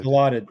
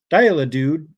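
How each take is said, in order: First: "Dilaudid" said as dih-LAW-did; corrected pronunciation. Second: "Dilaudid" stumbled as DIE-la-dood; mispronounced drug name. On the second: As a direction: say "Dilaudid" as DIE-luh-doo, unsure and questioning. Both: Real, not acted.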